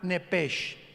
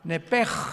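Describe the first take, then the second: First: The word ends in a hissing sh sound. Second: The word ends in a throaty rasping sound. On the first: The speaker calls it wrong. "con ese hache al final, como suena nepesh" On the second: The speaker calls it right. "se pronuncia como J ... Que es gutural"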